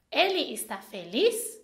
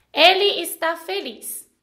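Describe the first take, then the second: First: "Ele está feliz" asked, lifting up on "feliz"; question intonation. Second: "ele está feliz" as a firm statement, falling at the end; statement intonation. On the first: Teacher showing intonation to learners, rising question tune. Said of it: "eu fiz uma pergunta". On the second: Teacher showing intonation to learners, falling statement tune. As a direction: let "feliz" drop to state it as fact. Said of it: "eu fiz uma afirmação". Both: Shown as a demonstration.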